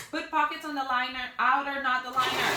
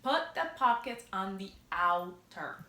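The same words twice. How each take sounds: First: "Put pockets on the liner" blurted higher and louder, tripping over it; stumbling as she fixes the word, pitched up and louder; flustered correction. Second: "Put the pockets on the outer" said slowly, each word placed with care; slow it down and land "outer" deliberately; slow careful correction. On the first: Sewing teacher flustered by her own slip to viewers, blurting higher. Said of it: "I'm gonna keep saying it wrong". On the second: Teacher finally says the step right for viewers, slow and careful. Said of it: "There we go. I got it, finally".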